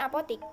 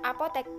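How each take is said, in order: First: The last syllable has an i vowel. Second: The last syllable has an e vowel. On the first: This is a nonstandard form. The speaker calls it wrong. "bukan apotik" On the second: This is the standard form. The speaker calls it right. "diucapkan apotek"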